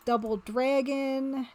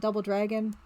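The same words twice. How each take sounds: First: Slow stretched "Double Dragon" with a drawl; odd drawn-out Double Dragon. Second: Said in the usual way. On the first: Shown as a demonstration. Streamer reading a poster title to chat, slow regional drawl. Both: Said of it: "I don't know why I said it like that".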